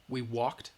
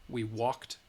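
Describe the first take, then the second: No difference in how they are said.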